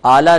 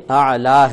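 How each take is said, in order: First: اعلی said with a plain alif, no ع; wrong pronunciation. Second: اعلی begun with a clear ع from the throat; correct pronunciation. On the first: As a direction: start اعلی with an open vowel and no throat sound. (غلط تلفظ، عین کے بغیر) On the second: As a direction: sound the عین at the start of اعلی. (درست تلفظ، عین حلق سے) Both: Shown as a demonstration. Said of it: "یہ عین ہے".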